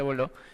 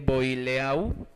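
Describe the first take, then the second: First: The name is said with its real pronunciation. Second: The name is read out letter by letter. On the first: This is how the name is actually pronounced. "pero se pronuncia Boileau" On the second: This is how the name is written. "se escribe Boileau"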